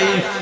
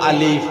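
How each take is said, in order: First: The word is said without the l sound. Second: The word is said with a clear l sound. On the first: The speaker calls it wrong. "তুতলানির কারণে তাই না আলিফুকুর উচ্চারণ করতে পারতাম না" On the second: The speaker calls it right. "মানে আলিফুর উচ্চারণ"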